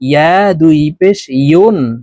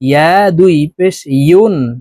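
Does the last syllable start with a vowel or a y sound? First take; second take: y sound; y sound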